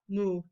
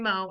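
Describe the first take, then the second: First: The vowel sounds like 'oo'. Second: The vowel sounds like 'oh'. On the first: The speaker calls it right. "it's like a cow, moo" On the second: The speaker calls it wrong. "don't say mo"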